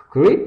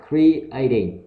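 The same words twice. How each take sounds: First: CREATE as one word, the -ing missing; mistaken reading. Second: CREATING in full, cre-A-ting; corrected reading. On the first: Teacher shows learners the mistake to avoid, wrong reading. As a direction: misread it as "create", punched out. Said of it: "Chứ không đọc là". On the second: Teacher gives learners the right reading, carefully pronounced. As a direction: say "creating" with cre and a as separate vowels. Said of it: "Nó là creating". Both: Shown as a demonstration.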